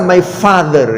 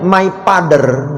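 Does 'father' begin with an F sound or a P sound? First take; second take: F sound; P sound. First: The word father begins with an F sound. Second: The word father begins with a P sound. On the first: The speaker calls it right. "nggak bisa my father" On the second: The speaker calls it wrong. "kalau orang Sunda ngomongnya my father"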